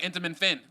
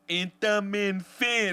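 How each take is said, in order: First: It is said at normal speed. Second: It is said slowly.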